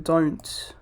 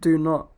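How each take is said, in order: First: It is said as one shortened word. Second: It is said as two separate full words.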